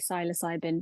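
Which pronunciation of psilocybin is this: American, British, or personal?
British. The word is said the British way. This is how people in the UK say it. "In the U K, they say"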